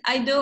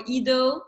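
First: "Ido" pronounced EYE-doh; first syllable like "eye". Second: "Ido" pronounced EE-doh; first syllable like "ee". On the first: Host unsure of guest's surname, trying "Ido" as EYE-doh. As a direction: say "Ido" with a long I, as in "idol". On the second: Host unsure of guest's surname, trying "Ido" as EE-doh. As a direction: say "Ido" starting with the vowel of "see". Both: Shown as a demonstration. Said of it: "I don't know if it's Ido or Ido".

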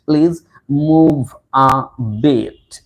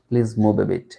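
First: Very slow, each word of "please move a bit" drawn out; teacher's drawn-out, emphatic "move a bit"; slow model phrase. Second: Said in the usual way. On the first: Shown as a demonstration. Teacher stretches phrase for learners.

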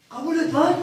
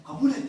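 First: Kabul et lan pushed higher and louder; insist, raising the voice on lan; louder urging. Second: Said in the usual way. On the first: Retold or imitated. Urging his friend to take the manager's offer, louder and higher.

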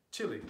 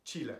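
First: Chile said as CHILL-ee; English pronunciation. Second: Chile said as CHEE-leh; Spanish pronunciation. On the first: Teaching what we say in English, English pronunciation. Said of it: "in English, we say". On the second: Teaching what we do not say, Spanish pronunciation. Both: Shown as a demonstration.

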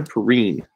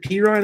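First: "Perine" as puh-REEN, long ee at the end; alternative pronunciation. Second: "Pirine" as PEE-ryne, long eye in the second syllable; first pronunciation option. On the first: Card breaker offering the other option, "Perine" as puh-REEN. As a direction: say "Perine" to rhyme with "green". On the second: Card breaker unsure of a player's name, "Pirine" as PEE-ryne. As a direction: say "Pirine" to rhyme with "fine". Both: Shown as a demonstration. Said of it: "Is it Pirine or Perine?".

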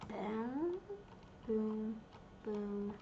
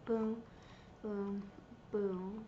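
The two takes are said the same way.

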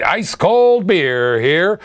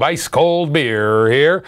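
First: Slow, drawn-out vendor call; stadium vendor hawking. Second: Slow, lower put-on hawker voice; slow gruff stadium beer man; stadium vendor hawking. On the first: Pretend. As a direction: stretch it out like a ballpark hawker. Beer vendor call repeated.

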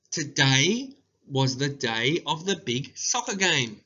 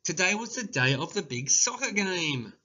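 First: Slow, careful dictation pace; each word spaced for dictation. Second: Said in the usual way. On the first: Shown as a demonstration. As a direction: read it out slowly for writing down. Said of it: "dictation read slowly". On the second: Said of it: "I'll read it out again".

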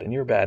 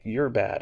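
First: Harsher, louder scolding "you're bad"; louder arrogant judgment. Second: Arrogant judgment. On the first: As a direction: hammer the judgment home, louder. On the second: Retold or imitated. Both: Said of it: "arrogance that's like".

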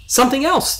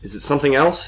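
First: Very high-pitched excited echo. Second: Said in the usual way. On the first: A narrator's reading. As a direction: pipe it back, thrilled, pitch way up. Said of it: "the voice said excitedly".

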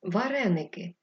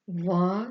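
First: Said in the usual way. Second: Ва-ре-ни-ки, each syllable held apart; syllable-by-syllable dictation. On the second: Shown as a demonstration. Teacher dictating for pupils writing, syllable by syllable.

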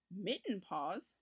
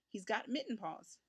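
First: Put-on slow, rising puzzled boy's question. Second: Said in the usual way. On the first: A narrator's reading. Richard asks the farm woman about mitten paws, slow puzzled. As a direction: repeat it slowly, wondering what it means. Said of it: "said Richard". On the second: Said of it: "she added".

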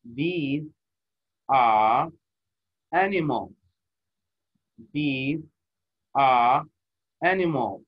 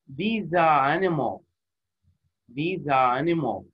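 First: Each word apart, are punched louder. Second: Slow, all three words run together; linked smoothly. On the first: Teacher demonstrating choppy reading to students. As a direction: chop it into single words. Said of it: "جزأتها أنا كل كلمة قريتها". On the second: Teacher showing students the joined phrase, slowly. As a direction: say it as one flowing unit. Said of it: "These are وكأنه كلمة واحدة". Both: Shown as a demonstration.

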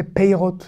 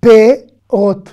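First: "peirot" with an ei glide, pei-rot; peirot with yod. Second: "Perot" loud, in two separate beats; usual perot, silent yod. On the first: Teacher showing the optional reading, yod pronounced. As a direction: sound the i after the e in "peirot". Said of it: "Ici, on peut prononcer peirot". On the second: Teacher modelling the general reading, yod left silent. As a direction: say "Perot" with plain é, no i glide. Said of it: "En général, on ne prononce pas ici". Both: Shown as a demonstration.

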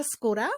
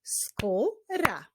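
First: Said in the usual way. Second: "Skóra" split into skó, ra with a gap; syllable by syllable. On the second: Shown as a demonstration. Teacher answering what syllables skóra has, "Skóra" syllable by syllable. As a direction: break "Skóra" into two drawn-out beats. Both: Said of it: "Jakie ma sylaby?".

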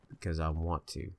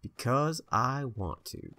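First: Said in the usual way. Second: Put-on higher, slow, childish whine; petulant drawl. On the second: Player mock-whining his reason to the viewers, a slow, higher petulant drawl. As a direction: stretch it out like a spoiled kid.

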